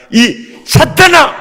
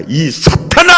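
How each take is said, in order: First: Much higher, louder, slow rebuking shout; loud rebuke. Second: A louder, higher rebuke for the crowd to repeat; mock rebuke. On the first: Preacher modelling Jesus's rebuke for the congregation, slow shouted rebuke. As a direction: hurl it out like Jesus rebuking Peter. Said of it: "나처럼 따라서 해봐". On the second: Preacher leading the congregation in Jesus's rebuke, a mock rebuke. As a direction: call it out for them to echo. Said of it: "따라서 합다". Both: Shown as a demonstration.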